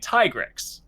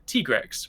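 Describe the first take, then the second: First: The first syllable sounds like 'tie'. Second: The first syllable does not sound like 'tie'. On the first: "as in like Ty or Tiger" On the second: "I have said Tigrex"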